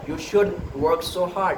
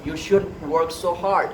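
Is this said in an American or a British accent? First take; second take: British; British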